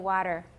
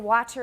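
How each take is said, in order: First: The middle T is a quick tap. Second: The middle T is a clear t sound. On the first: The speaker calls it right. "we say water" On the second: The speaker calls it wrong. "we don't say water in American"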